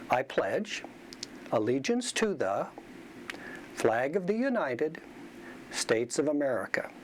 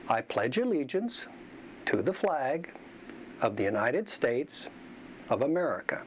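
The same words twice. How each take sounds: First: Pauses fall at odd places mid-phrase. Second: Pauses fall at natural phrase boundaries. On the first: The speaker calls it wrong. "The second sentence sounds choppy" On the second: The speaker calls it right. "the first sounds fluent"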